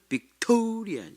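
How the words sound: It is said with English stress. The speaker calls it right. "근데 진짜 소리는 빅토리아"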